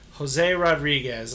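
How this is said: The name is said with an English-speaking accent. The speaker reads the name in their own voice.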